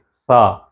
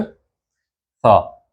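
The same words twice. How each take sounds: First: Isolated sound demo for the Arabic th in इस्नेन. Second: सा with a lisped th like English thin; Arabic ث sound demonstrated. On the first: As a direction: hold the sound सा on its own as a teacher does. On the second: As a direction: push the tongue out for सा. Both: Shown as a demonstration. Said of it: "सा की आवाज़ है".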